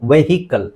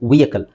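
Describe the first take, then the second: First: An h sound is pronounced after the first vowel. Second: No h sound is pronounced after the first vowel. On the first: The speaker calls it wrong. "ಬಹಳಷ್ಟು ಜನ ನಾವು ವೆಹಿಕಲ್ ಅಂತ ಹೇಳ್ತೀವಿ" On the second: The speaker calls it right. "ಸರಿಯಾದ ಉಚ್ಚಾರಣೆ ನೋಡಿ, ವಿ ಯ ಕ ಅ ಲ್"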